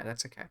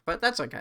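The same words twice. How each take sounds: First: Dropped much softer to herself; soft murmured reassurance; softer repeat. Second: Said in the usual way. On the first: Real, not acted. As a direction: let it fall away under the breath.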